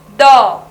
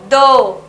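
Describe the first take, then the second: First: The vowel is an open o sound. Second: The vowel is a closed o sound. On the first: "a sílaba do pode ter o som de dó" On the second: "D mais o do"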